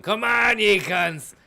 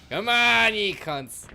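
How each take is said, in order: First: High, loud mock battle cry; imitated mad yell. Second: High, loud battle yell; furious shout. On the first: Imagining a panicked man running around, mock yell. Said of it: "you just ended up fucking running around going". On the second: Real, not acted. Gamer roaring at attacking enemies, furious shout. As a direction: scream it at the enemies.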